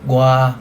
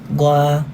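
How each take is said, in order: First: The word is said sharply, as if angry. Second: The word is said evenly and calmly. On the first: "pagalit. ... gwa is four" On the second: "Yun yung one"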